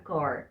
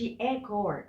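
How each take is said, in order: First: The article is a short, weak 'uh' vowel. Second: The article is a full, long 'ay' vowel. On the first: The speaker calls it right. "اقول a car a car a car. فين الاي؟ راحت" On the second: The speaker calls it wrong. "ما اقولش a car"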